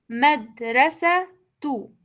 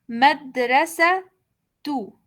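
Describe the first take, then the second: No difference in how they are said.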